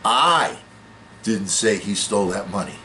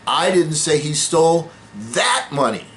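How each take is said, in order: First: The word 'I' carries the main stress. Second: The word 'that' carries the main stress. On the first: Someone else said it. "That means somebody else said it" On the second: He took different money. "No, he stole somebody else's money"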